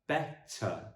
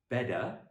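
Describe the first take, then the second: First: The middle t is a clear, crisp t. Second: The middle t is softened into a d. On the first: The speaker calls it right. "but better" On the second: The speaker calls it wrong. "not better, as the Americans would say"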